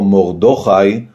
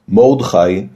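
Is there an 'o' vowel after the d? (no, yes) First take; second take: yes; no. First: The d is followed by an 'o' vowel. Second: The d is followed directly by the ch. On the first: "גם לא מורדכי בחולם" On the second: "אין לומר מורדכי בשווה נח"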